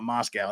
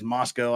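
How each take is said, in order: First: It is pronounced the way used for Russia. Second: It is pronounced the local Idaho way. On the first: It names the Russian city. The speaker calls it wrong. "not Moscow. That's a, that's that's that commie place over there" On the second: It names the town in Idaho. The speaker calls it right. "That's how we pronounce it out there in, in Utah and Idaho. It's Moscow, Idaho"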